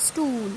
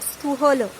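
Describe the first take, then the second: First: Stool as one long syllable, softer and falling; silent H. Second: Stu-, hollow split in two with an audible h; sounded middle H. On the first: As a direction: stretch the oo in stool with no h. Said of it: "is silent here". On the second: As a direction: say stu-, hollow as separate syllables, voicing the h. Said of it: "It's not stu-, hollow". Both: Shown as a demonstration.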